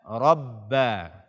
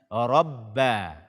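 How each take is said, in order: No difference in how they are said.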